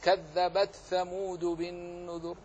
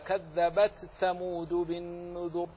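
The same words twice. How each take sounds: First: The t is pronounced clearly before the th. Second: The t is pronounced clearly before the th.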